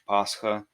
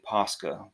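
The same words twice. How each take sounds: First: The middle consonant is a breathy h-like sound. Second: The middle consonant is a hard k sound. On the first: "the way Russians say it with an H" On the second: "Many English speakers uh, say Pascha, which is okay"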